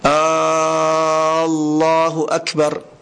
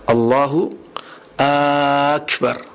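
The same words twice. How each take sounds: First: The first vowel of Allahu is drawn out. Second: The first vowel of Akbar is drawn out. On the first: "Atau hamzahnya Allah" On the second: "Ini hamzahnya Akbar dipanjangkan"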